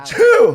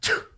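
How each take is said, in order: First: The sneeze is made with the voice sounding. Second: The sneeze is made without using the voice.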